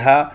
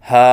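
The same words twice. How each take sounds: First: The vowel is cut short. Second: The vowel is held too long. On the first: "न एक अलिफ से कम हो" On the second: "न एक अलिफ से ज़्यादा हो"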